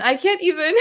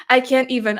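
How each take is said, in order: First: Higher, half-laughing, half-crying; laughing fake sob; laughing mock despair. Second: Said in the usual way. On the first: Shown as a demonstration. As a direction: crack up as you repeat it. Reading a viewer's comment, second take.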